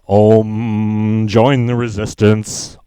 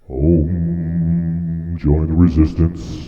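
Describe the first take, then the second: First: It is said in his ordinary voice. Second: It is said in a put-on special voice.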